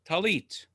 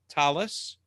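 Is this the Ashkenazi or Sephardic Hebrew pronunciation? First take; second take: Sephardic; Ashkenazi. First: It uses the Sephardic Hebrew pronunciation. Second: It uses the Ashkenazi Hebrew pronunciation.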